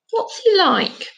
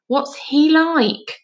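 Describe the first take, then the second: First: Curious question. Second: Slow, louder, "he" stressed; insistent repeat. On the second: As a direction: press the question again, slowly. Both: Acted. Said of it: "Shut up about goals and stuff".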